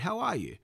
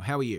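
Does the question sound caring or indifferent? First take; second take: caring; indifferent. First: The question sounds warm and genuinely interested. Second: The question sounds flat and uninterested. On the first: The caller genuinely wants to know. The speaker calls it right. "So genuinely care" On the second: The caller does not really want to know. The speaker calls it wrong. "It doesn't sound like I want to know"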